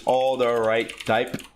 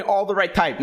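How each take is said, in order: First: All the right type drawn out word by word; slow, spelled-out name. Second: Said in the usual way. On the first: Shown as a demonstration. Explaining the program name slowly to viewers. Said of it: "I don't know if y'all know what all the right type is".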